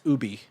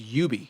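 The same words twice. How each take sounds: First: The name is pronounced the French way. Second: The name is pronounced the English way. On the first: "if you're a true Frenchman, it's Ubi" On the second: "if you're an Englishman, it's Ubi"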